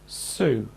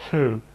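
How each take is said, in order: First: Said in the usual way. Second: "thu" with slushy air escaping over the tongue sides; lateral lisp. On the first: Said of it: "it might sound like this". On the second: Shown as a demonstration. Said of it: "If you have a lateral lisp".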